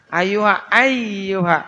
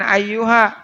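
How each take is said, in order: First: Ayyuha with the y held double; doubled y. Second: Ayyuha with a single light y; wrong light y. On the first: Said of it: "ya-nya ada tasdid". (ya ditekan pada "ayyuha") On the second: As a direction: skip the doubled y in ayyuha. ("ayyuha" tanpa tasydid ya) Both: Shown as a demonstration.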